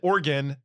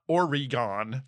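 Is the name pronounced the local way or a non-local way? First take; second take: local; non-local. First: The name is pronounced the local way. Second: The name is pronounced a non-local way. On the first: The speaker calls it right. "you can tell that I said Oregon" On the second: The speaker calls it wrong. "not Oregon"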